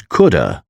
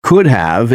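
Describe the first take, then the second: First: "coulda" as KOOD-uh; casual blended "coulda", no v; reduced could have. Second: Said in the usual way. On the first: Shown as a demonstration. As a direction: say "coulda" with only "uh" left of have. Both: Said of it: "is pronounced as".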